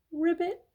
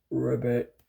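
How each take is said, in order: First: High little ribbit; soft frog croak. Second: Low, deep ribbit; big frog croak. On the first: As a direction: croak it softly like a tiny frog. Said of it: "Frog croaked softly". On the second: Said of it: "He's big. He probably said". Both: Acted.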